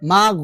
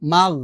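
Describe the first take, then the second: Both takes have the same delivery.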